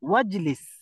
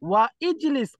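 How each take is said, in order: First: The words run together without the 'i' sound. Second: The words are separate with the 'i' sound. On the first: The speaker calls it right. "হামজাটা এখানে সাইলেন্ট থাকবে" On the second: The speaker calls it wrong. "ওয়া ইজলিস বলা যাবে না"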